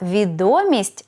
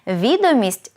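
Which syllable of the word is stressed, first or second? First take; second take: second; first. First: The stress is on the second syllable. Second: The stress is on the first syllable. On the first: It means news, knowledge or fame. "наголос на другий склад" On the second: It means a document or list. "наголос на перший склад"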